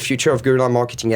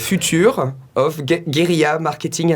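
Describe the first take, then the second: First: It is said with a native-like English accent. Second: It is said with a strong French accent. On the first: "vous avez un accent anglais tellement parfait" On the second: "avec l'accent français"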